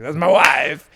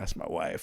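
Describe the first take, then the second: First: It is said in a comic foreign accent. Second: It is said in a smooth, sultry voice. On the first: Being married is old and no longer exciting. "it's like Borat" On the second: Being married is new and exciting. "cool and sleek and, and sexy back in the days"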